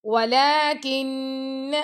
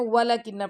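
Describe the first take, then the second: First: Slow وَلَكِنَّ with the long a after the laam fully held; وَلَكِنَّ drawn out, laam lengthened, nasal noon; correct walakinna. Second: وَلَكِنَّ rushed, the long a of the laam skipped; quick وَلَكِنَّ that drops the standing fatha; student mistake. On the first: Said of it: "آپ اس کو skip نہ کیا کریں". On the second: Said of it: "student کیا پڑھ رہے ہوتے ہیں". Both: Shown as a demonstration.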